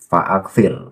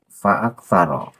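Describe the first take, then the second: First: The word ends in a short -ir. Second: The word ends in a longer -aro. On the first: The speaker calls it right. "ia harus dibaca jazm" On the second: The speaker calls it wrong. "Nah itu salah"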